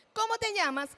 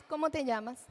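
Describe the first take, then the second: First: Put-on high, friendly question to a child; bright, high-pitched question; adult asking. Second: Level, plain parrot of the question; child echoing. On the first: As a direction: ask it up high and inviting. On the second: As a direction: repeat it back without meaning. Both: Shown as a demonstration. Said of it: "tenemos también la ecolalia".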